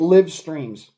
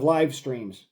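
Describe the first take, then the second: First: The vowel in live rhymes with give. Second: The vowel in live rhymes with five. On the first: This is how a machine voice misreads it. The speaker calls it wrong. "That's why you get live streams" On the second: This is how a native speaker says it. The speaker calls it right. "instead of live streams"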